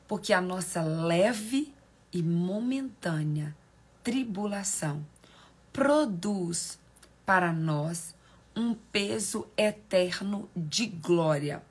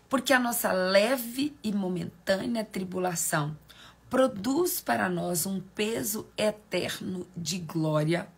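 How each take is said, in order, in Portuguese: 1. É lido com mais calma e mais devagar. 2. É lido num ritmo mais rápido e menos calmo.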